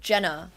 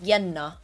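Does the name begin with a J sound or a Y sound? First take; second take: J sound; Y sound. First: The name begins with a J sound. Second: The name begins with a Y sound.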